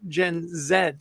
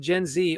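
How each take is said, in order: First: The letter Z is pronounced 'zed'. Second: The letter Z is pronounced 'zee'.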